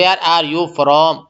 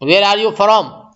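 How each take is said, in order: First: Slow English phrase. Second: Very slow, spelled-out English question; slow English phrase. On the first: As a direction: drag each word out for the class. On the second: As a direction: stretch each word out for the learners. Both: Shown as a demonstration. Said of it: "English میں بول سکتے".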